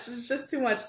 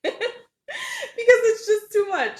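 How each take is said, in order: First: Said in the usual way. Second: High, laughing through the words. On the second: Real, not acted. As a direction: laugh it out, amused. Laughing over a viewer comment.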